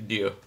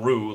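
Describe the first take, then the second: First: It starts with a soft D-like sound. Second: It starts with an English R, rhyming with roo. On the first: The speaker calls it right. "more like a soft D" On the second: The speaker calls it wrong. "It's not Rue like kangaroo"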